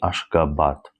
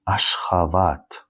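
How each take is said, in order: First: The middle consonant is a b sound. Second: The middle consonant is a v sound. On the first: The speaker calls it wrong. "not Ashgabat" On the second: The speaker calls it right. "B in the middle of the word, we read as a v"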